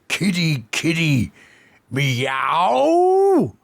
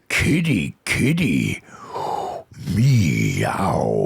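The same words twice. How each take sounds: First: It is said plainly, without seduction. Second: It is said in a seductive way.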